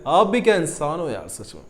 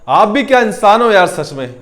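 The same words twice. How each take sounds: First: It is said in a warm, affectionate tone. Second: It is said in an angry tone. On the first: The speaker admires or is fond of the person. "अच्छे से बोला जाता है" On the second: The speaker is annoyed with the person. "गुस्से में बोला जाता है"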